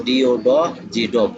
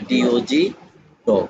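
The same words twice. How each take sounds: First: "ডি ও ড" cut off as a half-word, pause, then "জি ডগ"; broken-up spelling. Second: "ডি ও জি" in one unbroken run, then "ডগ" whole; read as one. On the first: Teacher warning trainees against this, "ডি ও ড, জি ডগ" split midway. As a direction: break "ডি ও ড, জি ডগ" after the fragment "ড". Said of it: "এভাবে বলা যাবে না". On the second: Teacher correcting the broken reading, "ডি ও জি" together, then "ডগ" whole. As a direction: spell "ডি ও জি" straight through, then say "ডগ". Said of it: "বরং বলতে হবে". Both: Shown as a demonstration.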